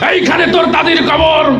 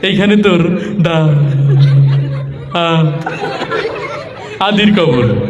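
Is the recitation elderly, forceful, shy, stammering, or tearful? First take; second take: forceful; stammering. First: It is recited in a forceful, speech-making manner. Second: It is recited with stammering on the words. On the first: The reciter is used to giving speeches. "নেতা এসে কবিতা আবৃত্তি করছে এইভাবে" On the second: The reciter has trouble getting words out. "তোতলা টাইপের, কথা বলতে একটু কষ্ট হয়"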